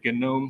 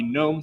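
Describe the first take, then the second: First: The word starts with a hard G. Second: The word starts with a silent G. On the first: The speaker calls it right. "the cool kids pronounce that G with a hard G" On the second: The speaker calls it wrong. "this is not a GNOME system"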